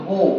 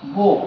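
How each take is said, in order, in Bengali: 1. স্বরধ্বনিটি 'oh' এর মতো শোনায়, 'go' এর সাথে মেলে। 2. স্বরধ্বনিটি 'oh' এর মতো শোনায়, 'go' এর সাথে মেলে।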